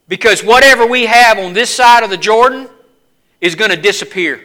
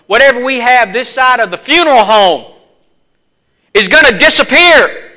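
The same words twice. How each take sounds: First: Said in the usual way. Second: Funeral home hit hard, disappear rising louder; retake with more force. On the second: Shown as a demonstration. Preacher retrying the line to Charlie, louder and stronger. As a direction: push it harder on the second try. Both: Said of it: "let's try that again".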